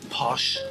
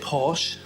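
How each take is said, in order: First: Posh is said the typical Irish way. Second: Posh is said in the speaker's own posher way. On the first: "Irish people laugh at me and say no, it's posh" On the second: "I say posh"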